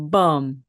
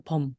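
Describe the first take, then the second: First: 범 with a firm M, lips pressed shut; closed-lip 범. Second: Said in the usual way. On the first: Shown as a demonstration. Teacher showing students the right 범 ending. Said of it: "범 하고 이렇게 소리를 내시는 겁니다". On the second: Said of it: "그때 그냥 범, 이게 아닙니다".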